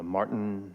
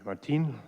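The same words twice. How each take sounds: First: The name is pronounced the English way. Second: The name is pronounced the Spanish way.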